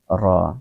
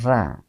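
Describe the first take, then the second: First: The r is said thick and heavy. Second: The r is said thin and light. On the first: The speaker calls it right. "dibaca dengan tebal atau tafkhim" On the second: The speaker calls it wrong. "tidak ra ya. Ra bacaan yang keliru"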